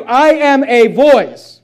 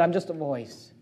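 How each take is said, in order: First: Louder and slower, each word laid down; loud slow declaration. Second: Hushed humble line. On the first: Pastor answering who he is, declared loud and slow. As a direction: proclaim it like a banner. Preacher declaring his own calling. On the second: Preacher echoing John's words to the congregation, hushed. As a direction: drop almost to a hush, softer and lower. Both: Acted.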